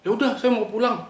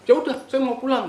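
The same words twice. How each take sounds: First: High sharp retort, much higher; snapping friend. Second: Higher, louder sharp retort; snapping. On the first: Friend snaps she wants to go home, high and sharp. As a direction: snap it back like a sudden temper. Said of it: "Bentak gitu?". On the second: Retelling how the friend snapped, a sharp high bark. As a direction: bark it back in a sudden temper. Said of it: "Oh, oh, bentak". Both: Retold or imitated.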